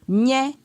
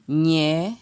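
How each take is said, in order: First: The syllable is said on a high tone. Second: The syllable is said on a mid tone. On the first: "Ton haut" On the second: "Ton moyen"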